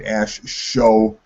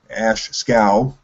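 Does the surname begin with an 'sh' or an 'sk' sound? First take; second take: sh; sk. First: The surname begins with an 'sh' sound. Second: The surname begins with an 'sk' sound. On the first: The speaker calls it wrong. "I've always said Ash Show" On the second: The speaker calls it right. "I think the correct pronunciation is Scow"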